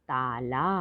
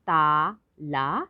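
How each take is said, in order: First: Said in the usual way. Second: ताला drawn out slowly as ता, ला; syllable by syllable. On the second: Shown as a demonstration. Teacher spelling out ताला for children, syllable by syllable. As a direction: sound out ताला in two long syllables. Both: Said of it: "तो शब्द पढ़ते हैं".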